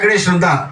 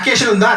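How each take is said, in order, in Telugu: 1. accreditation అనే పదాన్ని దాని అన్ని అక్షరాలతో పూర్తిగా పలుకుతారు. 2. accreditation అనే పదాన్ని 'akeshan' అని క్లిప్ చేసి పలుకుతారు.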